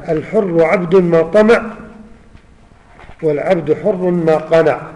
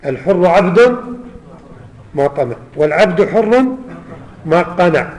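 The two takes are said the same way.

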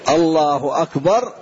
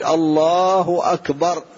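First: "الله أكبر" moderately drawn out, ending on a rise; takbir for bowing. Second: "الله أكبر" with a long-held "الله", rising on "أكبر"; takbir for prostration. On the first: Teacher shows timing the takbir to bowing, "الله أكبر" measured and slow. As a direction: say "الله أكبر" stretched just long enough to reach the bow. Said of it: "يقع في الركوع". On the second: Teacher shows takbir going down to prostrate, "الله أكبر" long and drawn out. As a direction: stretch "الله أكبر" slowly across the whole descent to the ground. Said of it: "وإذا كنت في السجود".

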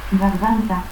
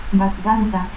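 First: Said in the usual way. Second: Garganta as "batganta". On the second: Shown as a demonstration. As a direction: stop for the R of Garganta, B-like start. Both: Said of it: "confusión de R y T al final de sílaba".

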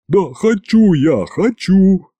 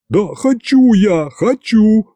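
First: High squeaky plea, slow; a hint of a squeaky frightened governor; squeak. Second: Shrill squeal. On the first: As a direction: squeak it out like a scared little man. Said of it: "пискнул Иван". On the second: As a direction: squeal it out in panic. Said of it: "снова заверещал Иван". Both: A narrator's reading.

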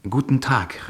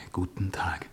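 First: Guten Tag called out bright and loud; called greeting. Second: Guten Tag answered in a soft whisper; whispered reply. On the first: Edwarda calls her greeting to Glan, bright and loud. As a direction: call Guten Tag across to him. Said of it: "rief sie immer zuerst". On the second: Glan answers Edwarda's greeting in a hushed whisper. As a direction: murmur Guten Tag back to her. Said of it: "und ich antwortete". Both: A narrator's reading.

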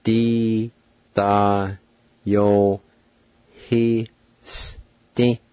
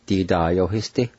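First: "Di da yo he sti" held and separated by pauses; "Di da yo he sti" drawn out, each sound alone; syllable-by-syllable demo. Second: "Di da yo he sti" run together as one word; "Di da yo he sti" blended at an easier pace; whole-word pronunciation demo. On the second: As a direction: join "Di da yo he sti" without gaps. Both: Shown as a demonstration. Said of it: "now pronounce these words".

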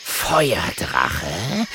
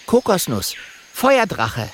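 First: Drawn-out snarled question, rising; hissing, incredulous panther. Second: High, proud little dragon voice; high-pitched dragon character. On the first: A narrator's reading. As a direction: snarl it back like a big cat. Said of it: "faucht der Panther". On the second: Acted. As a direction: introduce yourself as the small dragon. Little dragon introduces himself.

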